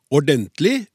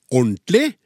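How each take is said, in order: First: Said in the usual way. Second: "ordentlig" shortened to orntlig, middle syllable dropped; common mispronunciation. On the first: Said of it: "alle uttaler feil". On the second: Shown as a demonstration. Host reads listener's example, "ordentlig" squeezed into orntlig. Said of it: "uttales gjerne ordentlig".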